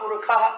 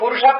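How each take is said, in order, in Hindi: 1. बीच का व्यंजन kh ध्वनि है। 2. बीच का व्यंजन sh ध्वनि है। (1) "शकार के स्थान पे खगार पड़ता है" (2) "पुरुषा पढ़ना गलत है"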